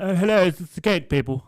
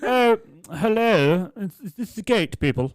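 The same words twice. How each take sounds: First: High, loud, fussy pensioner; old lady voice. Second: Put-on high, slow quavering old lady. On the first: Retold or imitated. Fitter mimicking the customer's phone call, pitched high. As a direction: squeak it out like the dotty customer. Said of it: "She's like". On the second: Tradesman mimicking an elderly customer on the phone, high and slow. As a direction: play the dotty old customer, pitched way up.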